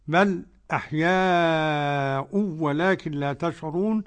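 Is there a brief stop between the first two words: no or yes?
yes. A brief silent stop comes before the second word.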